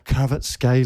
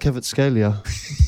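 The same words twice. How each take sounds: First: The name is said at normal speed. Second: The name is said slowly and carefully.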